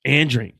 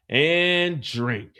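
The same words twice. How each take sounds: First: "And drink" punched clearly louder; loud final repeat. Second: Even, unhurried "and drink"; plain repeat. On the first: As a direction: hit "And drink" hard, louder. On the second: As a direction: say "and drink" at normal level. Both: Shown as a demonstration.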